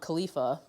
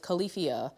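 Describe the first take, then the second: First: The name is said like kah-LEE-fah. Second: The name is said like kal-i-FEE-ah. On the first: The speaker calls it wrong. "I thought it was um" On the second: The speaker calls it right. "but it's Califia"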